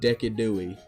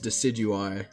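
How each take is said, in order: First: The start does not sound like 'deciduous'. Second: The start sounds like 'deciduous'. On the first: The speaker calls it wrong. "It is not Decadui. I refuse to call it Decadui" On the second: The speaker calls it right. "like deciduous tree"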